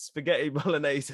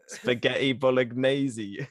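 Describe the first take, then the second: First: Said in the usual way. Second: Slow, attempted Welsh pronunciation; Welsh accent. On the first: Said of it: "you pronounce spaghetti bolognese". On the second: Shown as a demonstration. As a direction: stretch "bolognese" in a mock Welsh accent. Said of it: "in a Welsh accent".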